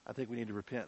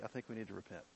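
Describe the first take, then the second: First: Said in the usual way. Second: Soft earnest call. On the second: Real, not acted.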